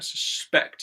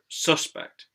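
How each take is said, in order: First: The stress is on the second syllable. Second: The stress is on the first syllable. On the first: It is used as a verb. "when it's in its verb form, then it usually goes on the second syllable" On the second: It is used as a noun. "in the noun word, then the syllable usually is stressed, the first one"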